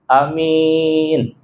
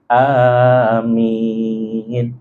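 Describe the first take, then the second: First: The first vowel is short, the last long. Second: Both the first and last vowels are long. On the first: "yang pertamanya pendek, yang ujungnya adalah panjang" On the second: "lafaz hamzahnya panjang dan juga minnya panjang"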